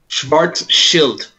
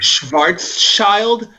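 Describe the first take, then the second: First: The last syllable sounds like 'shield'. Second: The last syllable sounds like 'child'. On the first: The speaker calls it right. "I'm gonna teach you guys how to pronounce this card name" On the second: The speaker calls it wrong. "they're just like seeing the word child and feeling like I need to say that word"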